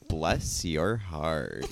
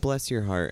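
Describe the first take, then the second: First: The phrase sounds sassy and mocking. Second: The phrase sounds warm and caring. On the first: The speaker is insulting the person. "I liked that sass" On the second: The speaker sincerely cares about the person. "there's a concern of like, I really appreciate this person"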